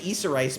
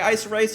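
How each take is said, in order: First: The first part sounds like 'Issa', two syllables. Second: The first part sounds like 'Ice', one syllable. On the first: "I used to say Issa Rice" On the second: "So I'm just gonna say Ice Rice"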